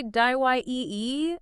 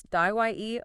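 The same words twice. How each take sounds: First: Slow "die-Y-E-E", die-uh-late, higher; extra syllable. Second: Slow "die-Y-E", just two syllables; correct pronunciation. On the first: Host admitting a tricky word, mispronunciation. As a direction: draw out "die-Y-E-E" into three syllables. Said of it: "I think I wanna say". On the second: Host correcting dilate, slow correct pronunciation. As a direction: say "die-Y-E" as die-late, drawn out. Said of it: "Yeah, but it's". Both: Shown as a demonstration.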